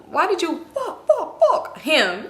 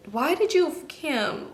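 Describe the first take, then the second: First: "fuck" popped out three times, high and slow; stuttered emphasis on "fuck". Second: Slow, softened, higher-pitched question; pointed questioning. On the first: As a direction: repeat "fuck" in separate comic beats, half laughing. Same question, word repeated for effect. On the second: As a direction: draw the question out in disbelief, quietly. Confronting her friend, first take. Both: Retold or imitated.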